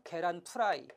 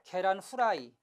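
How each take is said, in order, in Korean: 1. F는 'p' 소리처럼 발음됩니다. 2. F는 'h' 소리처럼 발음됩니다. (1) "어떤 사람은 이 F를 피읍에 가깝게 발음해요" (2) "어떤 사람은 이 F를 히읗에 가깝게 발음하고"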